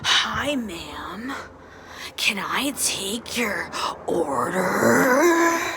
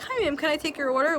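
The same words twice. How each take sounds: First: It is said in a weird, distorted way. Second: It is said in a plain, normal way.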